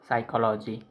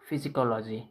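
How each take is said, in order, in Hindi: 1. शब्द की शुरुआत में P की आवाज़ नहीं है। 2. शब्द की शुरुआत में P की आवाज़ है। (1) "इसमें पी साइलेंट होता है" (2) "वो गलत है"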